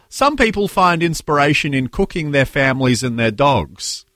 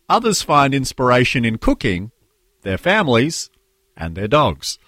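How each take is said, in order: First: It runs on without pauses between the items. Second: It has pauses after cooking and after families.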